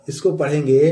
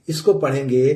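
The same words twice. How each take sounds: The two takes are said the same way.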